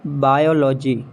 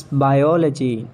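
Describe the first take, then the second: First: "Biology" as BY-o-LO-jee; full O in middle of "Biology"; mispronounced biology. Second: "biology" as by-OL-uh-jee; British pronunciation. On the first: Acted. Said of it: "not biology". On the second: Shown as a demonstration. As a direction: stress OL in "biology". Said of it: "It's biology".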